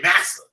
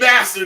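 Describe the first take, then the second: First: The word is said without the t sound. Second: The word is said with a clear t sound. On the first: This is the form claimed to come from Hebrew. "they were saying master" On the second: This is the standard English word. "instead of saying master"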